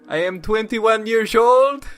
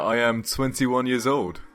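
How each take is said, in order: First: It is said in a put-on Roy voice. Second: It is said in his own normal voice.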